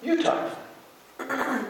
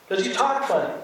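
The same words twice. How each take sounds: First: YOU pitched very high in mock retort; playful comeback with YOU punched up in pitch; stress on YOU. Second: Higher-pitched mock accusation; imitating a teasing local; retold teasing remark. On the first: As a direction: throw it back, leaning high on "You". Retold comeback, blame turned back. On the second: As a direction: playfully point out their odd speech. Retold teasing exchange about accents.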